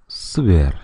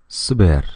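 First: The vowels are squeezed and barely heard. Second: The same.

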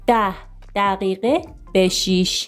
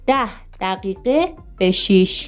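No difference in how they are said.

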